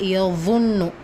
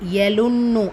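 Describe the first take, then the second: First: The middle consonant is a heavy Z sound. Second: The middle consonant is a plain L sound. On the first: The speaker calls it right. "இது யலுன்னும் கிடையாது, யظுன்னு" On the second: The speaker calls it wrong. "யலுன்னு அப்படின்னு சொல்லாதீங்க"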